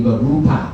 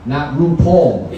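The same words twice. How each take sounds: First: Rupal with an open "pahl" ending; Indian name pronunciation. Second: RuPaul ending like "Paul"; drag-queen pronunciation. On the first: Giving the Indian coworker's real name, Rupal ending in "pahl". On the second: Correcting listeners on a coworker's name, RuPaul ending in "pawl". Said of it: "like the drag queen". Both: Shown as a demonstration.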